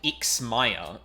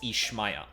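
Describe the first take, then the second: First: The middle consonant is a 'ks' sound. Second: The middle consonant is an 'sh' sound. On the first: The speaker calls it wrong. "is not how you pronounce that" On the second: The speaker calls it right. "or that's closer to it at the very least"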